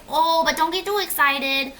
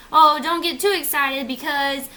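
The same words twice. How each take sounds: First: Higher, cautioning agent voice; put-on agent voice. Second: Slightly raised, louder cautioning voice; put-on agent voice. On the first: Insurance agent warning the customer, put-on voice. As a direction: play the agent dampening the good news. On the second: Agent cautioning about a catch, lightly put-on voice. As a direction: repeat the agent's warning in a mild put-on voice. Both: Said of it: "I don't know why I did that voice".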